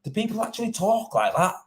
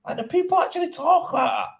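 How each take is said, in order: First: Higher, rising disbelief; incredulous thought. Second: Much higher-pitched, astonished question; mounting incredulity. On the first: Tradesman recalling his reaction to a rude message, incredulous. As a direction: wonder it in higher-pitched disbelief. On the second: Tradesman repeating his stunned thought about the message, highly incredulous. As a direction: push the disbelief right up high. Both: Retold or imitated. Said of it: "thinking to myself".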